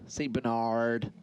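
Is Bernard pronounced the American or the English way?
American. Bernard is said with an American pronunciation. "If you go American"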